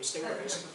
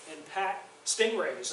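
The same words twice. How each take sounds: First: Stingrays with sting lightly punched; stress on sting. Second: Said in the usual way. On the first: Shown as a demonstration. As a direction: lean on the sting in stingrays, mildly. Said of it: "I wanna emphasize the word sting in that name". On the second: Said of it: "I wanna emphasize the word sting".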